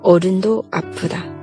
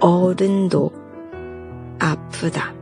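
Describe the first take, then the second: First: It is said at normal speed. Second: It is said slowly.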